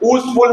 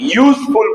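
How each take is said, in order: First: The word begins with a plain vowel sound. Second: The word begins with a y consonant sound. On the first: The speaker calls it wrong. "યુઝફુલ નથી બોલતા" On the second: The speaker calls it right. "યુઝફુલ બોલી. શું યુ? ... ય કક્કામાં આવે"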